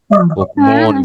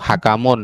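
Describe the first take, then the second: First: The first vowel is u, with no middle vowel. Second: The first vowel is a, then another a. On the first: The speaker calls it right. "Ini hukmun" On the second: The speaker calls it wrong. "atau hakamun"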